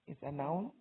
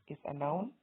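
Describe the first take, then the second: Both takes have the same delivery.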